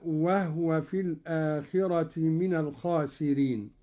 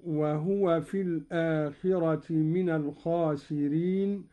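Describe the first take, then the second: First: وهو recited "wahwa", ha without a vowel; Qalun's silent-vowel ha. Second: Said in the usual way. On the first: Shown as a demonstration. Sheikh demonstrates Qalun's reading, وهو with vowelless ha, "wahwa". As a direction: close the first syllable of وهو on the h: wah-wa. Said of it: "قرأ قالون بإسكان الهاء هكذا". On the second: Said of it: "قرأ قالون بإسكان الهاء".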